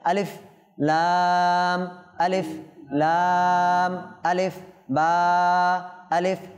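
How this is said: The letter names are separated by short pauses. The speaker calls it right. "পৃথক করে পড়ব"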